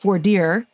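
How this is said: It is said the Northern way.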